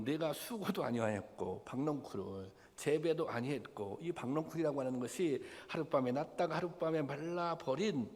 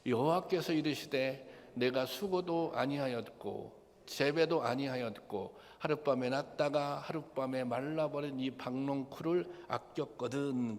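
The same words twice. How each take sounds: First: Said in the usual way. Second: Unison scripture reading. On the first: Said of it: "이 하나님이 그렇게 얘기하는 거예요". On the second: Shown as a demonstration. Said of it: "다 같이 보겠습니다. 이 말씀은 시작". (회중과 함께 천천히 봉독하는 목소리)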